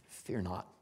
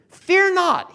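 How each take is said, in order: First: Low, soft, gentle reassurance; softly calm their fears; quiet assurance. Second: Loud, high preacher's proclamation; proclaimed. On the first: Retold or imitated. Joseph assures his fearful brothers, low and soft. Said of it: "He assures them". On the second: Acted. Preacher proclaims what Joseph said, loud and high. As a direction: ring it out to the congregation.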